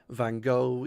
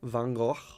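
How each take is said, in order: First: The name is said the common English way. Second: The name is said with a Dutch-style pronunciation. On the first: "the way that everyone is comfortable with" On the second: "my attempt at the original, I think it's Dutch uh, pronunciation"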